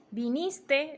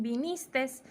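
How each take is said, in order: First: Said in the usual way. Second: Vinistes, extra final S, slow. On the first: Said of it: "En vez de decir". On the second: Shown as a demonstration. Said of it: "dicen vinistes".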